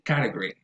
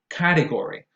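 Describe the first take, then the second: First: The word is said fast, with syllables reduced. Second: The word is said carefully, every syllable full.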